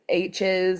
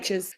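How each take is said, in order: First: It is said in the speaker's usual accent. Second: It is said in the local foreign accent.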